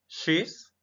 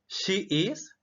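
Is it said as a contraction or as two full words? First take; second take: contracted; full. First: It is said as one contracted syllable. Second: It is said as two separate full words.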